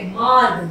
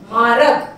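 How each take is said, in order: First: मार्ग as one cluster, र before ग; correct मार्ग. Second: मारग with an extra vowel, /marəg/; wrong मारग. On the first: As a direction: say मार्ग without the extra vowel. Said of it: "गै पे रह की मात्रा आती है". (सही उच्चारण मार्ग) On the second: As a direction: say मारग with the added अ. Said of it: "मारग नहीं बोलते". (गलत उच्चारण मारग) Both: Shown as a demonstration.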